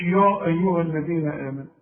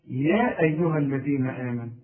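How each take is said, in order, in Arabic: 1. تُنطق الياء في البداية مفخمة وثقيلة. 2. تُنطق الياء في البداية رقيقة وخفيفة. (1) "مش" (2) "اذا الياء دي ترقق"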